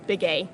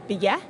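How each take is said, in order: First: It is said with the English pronunciation. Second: It is said with the Navajo pronunciation. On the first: This is the Americanized way of saying it. "Begay is the English" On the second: This is how the Dene people say it. "how they, as the Dene people, would say it"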